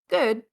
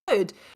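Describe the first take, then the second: First: It sounds flat and lukewarm. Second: It sounds warm and enthusiastic. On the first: It is not great. "in the U K, it can be like good. It's not great" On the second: It is genuinely good. "if you say good in the U in the U S, that you think like, oh, that's good"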